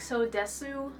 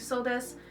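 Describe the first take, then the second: First: The final u of desu is fully pronounced. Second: The final u of desu is silent. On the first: The speaker calls it wrong. "It sounds super weird if you're like so desu" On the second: The speaker calls it right. "just get used to saying so desu"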